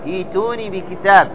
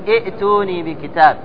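First: A long i vowel leads into t, no glottal stop. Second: A glottal stop is heard before the t. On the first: The speaker calls it right. "تقول إيتوني" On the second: The speaker calls it wrong. "لا تقول إئتوني بكتاب"

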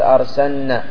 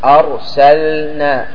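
First: The l sound merges into the following n. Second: The l sound is clearly pronounced before n. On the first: The speaker calls it wrong. "خطأ أن تقول أرسلنا" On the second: The speaker calls it right. "بإظهار اللام"

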